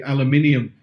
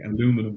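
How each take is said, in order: First: It is said with five syllables, ending -inium. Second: It is said with four syllables, ending -inum. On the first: This is how it is said over here. "over here we say aluminium" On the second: This is how it is said in America. "I know in America it's aluminum"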